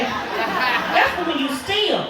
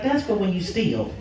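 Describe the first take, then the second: First: STEAL drawn out, higher and slow; emphatic repeat. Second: Said in the usual way. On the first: Retold or imitated. Mother spelling out the store height marks for her kid, emphatic. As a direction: repeat it slowly, stretching "steal".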